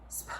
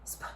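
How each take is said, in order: No difference in how they are said.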